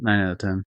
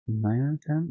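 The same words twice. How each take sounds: First: Nine out of ten. said flat with a firm fall on ten; firm falling tune on ten; settled statement. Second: Nine out of ten? asked, rising sharply on ten; unsure, rising tune on ten; questioning rise. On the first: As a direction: land "ten" down, decided. Settles the rating. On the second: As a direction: float "ten" up as an open question. Unsure rating, then settles. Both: Real, not acted.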